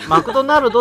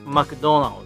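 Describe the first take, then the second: First: It is said with Japanese katakana pronunciation. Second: It is said with English pronunciation. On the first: The speaker calls it wrong. "マクドナルドって言っても多分通じないんで" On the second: The speaker calls it right. "そんな感じで言うと通じるかな"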